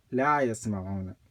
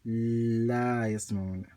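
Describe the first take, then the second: First: Said in the usual way. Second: Long held L at the start of "la yasma'una"; wrongly doubled L. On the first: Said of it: "No shadda". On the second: Shown as a demonstration. Teacher warning what not to say, "la yasma'una" with stretched initial L. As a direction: lean on the first consonant of "la yasma'una", "lll-la". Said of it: "You don't say".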